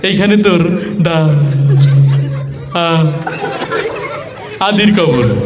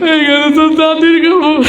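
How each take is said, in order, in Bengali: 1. লাইনটা তোতলিয়ে, টেনে টেনে শব্দাংশ উচ্চারণ করে বলা হচ্ছে। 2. লাইনটা কান্নাভেজা, কাঁদো কাঁদো গলায় বলা হচ্ছে। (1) "একটু তোতলা টাইপের, কথা বলতে একটু কষ্ট হয়" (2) "এই যেভাবে কান্নাকাটি শুরু করছে"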